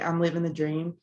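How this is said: It is said sarcastically.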